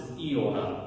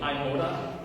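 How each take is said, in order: First: It begins with an 'ee' sound. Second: It begins with an 'eye' sound. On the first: "with an E sound" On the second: "you've heard this before"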